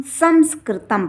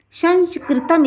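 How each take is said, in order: First: संस्कृतम misread with m in the middle, "samskritam"; wrong m reading. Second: संस्कृतम read with n in the middle, "sanskritam"; correct n reading. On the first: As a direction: say संस्कृतम as sam-skritam. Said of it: "ना कि इसे हम". (संस्कृतम, बीच में न की जगह म) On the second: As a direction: say संस्कृतम as san-skritam. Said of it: "संस्कृतम इसे पढ़ेंगे". (संस्कृतम, बीच में न का उच्चारण) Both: Shown as a demonstration.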